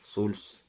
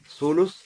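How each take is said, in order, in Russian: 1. После второй согласной гласной нет. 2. После второй согласной есть гласная. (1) "с сукуна второй буквы" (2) "с даммой второй буквы"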